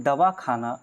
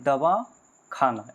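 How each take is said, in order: First: Said in the usual way. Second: दवा, a clear pause, then खाना; pause between words. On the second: Shown as a demonstration. Teacher demonstrating juncture, दवा and खाना said as two separate words. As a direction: split दवा from खाना with a short silence. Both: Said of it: "इस तरह से अंतर पड़ता है".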